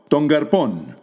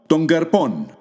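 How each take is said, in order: Both takes have the same delivery.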